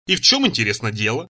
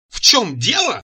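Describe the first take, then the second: First: Said in the usual way. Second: High, indignant outcry; wailing yell. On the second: A narrator's reading. Цира outraged by his question, wailing anew. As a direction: echo the question back in a raised, outraged wail. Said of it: "завопила она с новой силой".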